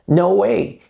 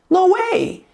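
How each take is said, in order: First: It is said plainly, just reporting. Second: It is said dramatically, with indignation.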